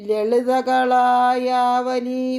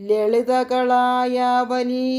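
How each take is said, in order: The two takes are said the same way.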